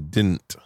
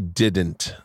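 First: The middle D sound is dropped. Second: The middle D sound is clearly pronounced.

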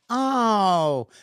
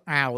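First: It sounds pleasant, not like a problem. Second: It sounds annoyed, like a problem.

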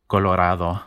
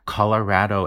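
First: The stressed vowel is an open Spanish ah. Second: The stressed vowel has an Anglo sound, not ah. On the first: "the vowel in Spanish is ah" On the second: "a much more Anglo pronunciation of this word"

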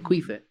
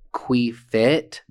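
First: The word is said fast, parts run together. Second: The word is said slowly, parts kept apart.

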